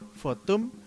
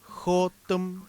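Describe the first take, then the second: First: The word begins with an F sound. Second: The word begins with a throaty J sound. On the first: "en otras zonas se dice Fotum, con F" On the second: "la J, como en la palabra Jotum"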